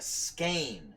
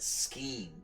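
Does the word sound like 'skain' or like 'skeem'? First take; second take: skain; skeem. First: The vowel sounds like the one in 'rain'. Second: The vowel sounds like the one in 'seem'. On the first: The speaker calls it right. "that's how you say that word" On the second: The speaker calls it wrong. "I've always pronounced it scheme, but I always felt that was wrong"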